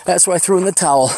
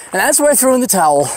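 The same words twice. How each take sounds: First: Said in the usual way. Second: Higher and louder, fed-up punchline; exasperated outburst. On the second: Real, not acted. Hiker telling listeners how he gave up, exasperated outburst. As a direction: throw your hands up as you say it.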